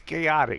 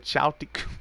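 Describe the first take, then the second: First: The first syllable sounds like 'kay'. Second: The first syllable sounds like 'chow'. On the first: The speaker calls it right. "and it's chaotic" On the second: The speaker calls it wrong. "I was about to say chowtic pickle"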